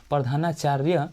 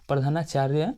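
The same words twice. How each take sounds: The two takes are said the same way.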